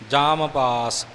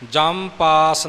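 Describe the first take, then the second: First: The vowel in the first word is long. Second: The vowel in the first word is short. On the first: The speaker calls it right. "मम्मा पूरा बोल के जाम पास इउं बोलना है" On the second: The speaker calls it wrong. "जम पास नहीं"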